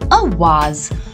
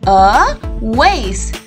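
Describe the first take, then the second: First: The word is said with a British pronunciation. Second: The word is said with an American pronunciation. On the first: "In the British English, it is usually called a vase. The S here gives a Z sound" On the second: "But in the American English, it is pronounced as a vase"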